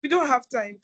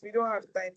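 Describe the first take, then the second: First: Firm insistent. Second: Said in the usual way. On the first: Real, not acted. Host cuts off speaker, insistent.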